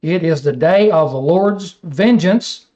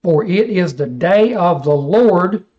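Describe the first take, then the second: First: Said in the usual way. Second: Slowed, weighty "day of the Lord" with "day" leaned on; slow emphasis on day of the Lord. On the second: Shown as a demonstration. Preacher pointing his class to the phrase, slow emphatic reading. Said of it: "see that?".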